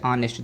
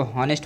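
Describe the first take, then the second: First: ऑनेस्ट starting straight on the o, no h; ऑनेस्ट said correctly with the h silent. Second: हॉनेस्ट with a clear h sound at the start; हॉनेस्ट spoken with an audible initial h as a mistake; wrong h pronounced. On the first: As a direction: drop the h and open ऑनेस्ट on the vowel. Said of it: "एच आपका silent है". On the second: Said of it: "ये गलत पढ़ रहे हैं". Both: Shown as a demonstration.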